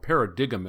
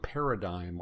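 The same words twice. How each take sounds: First: The word has a quirky local pronunciation. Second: The word has its usual standard pronunciation.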